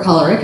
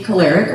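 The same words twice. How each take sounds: First: "choleric" with an open AH in the first syllable; "choleric" as KAH-ler-ik, first vowel full; alternative pronunciation. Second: Said in the usual way. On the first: Shown as a demonstration. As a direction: say "choleric" opening like "collar". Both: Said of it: "as some people say".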